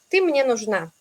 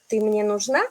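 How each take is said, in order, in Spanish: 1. El tono baja y se queda bajo. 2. El tono sube mucho en una palabra. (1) "si vamos un poco abajo con la entonación" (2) "siempre ahí voy muy arriba con la entonación"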